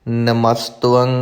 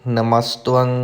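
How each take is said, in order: Both takes have the same delivery.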